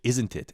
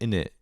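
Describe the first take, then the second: First: It is fully pronounced, with every consonant said. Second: It is reduced, with the middle consonants dropped. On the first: The speaker calls it wrong. "he would really pronounce it" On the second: The speaker calls it right. "British people they go, "In it"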